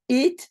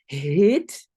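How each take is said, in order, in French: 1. Le mot commence sans son h. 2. Le mot commence par un son h audible. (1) "et pas it" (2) "vous dites heet"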